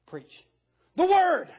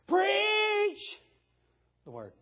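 First: The stress falls on the word word. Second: The stress falls on the word preach. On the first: The message itself is what matters most. The speaker calls it right. "The way it should be stated is this" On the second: The act of preaching is what matters most. The speaker calls it wrong. "Preachers like to read it like this"

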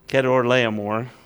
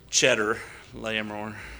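First: The name begins with a 'k' sound. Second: The name begins with a 'ch' sound. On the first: The speaker calls it right. "I'm going to try and get Kedor Laomer correct" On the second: The speaker calls it wrong. "when I was first reading it, I've called him Cheddar Laomer"

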